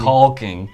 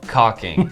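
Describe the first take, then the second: First: The L is pronounced and emphasized. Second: The L is silent, said normally.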